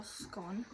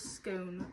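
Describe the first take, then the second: First: "scone" with a short o, rhyming with gone; "scone" with the vowel of hot. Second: "scone" with a long o, rhyming with bone; "scone" with the vowel of go. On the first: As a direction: say "scone" to rhyme with on. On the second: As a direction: say "scone" to rhyme with cone. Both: Shown as a demonstration. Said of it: "pronounces scone or scone".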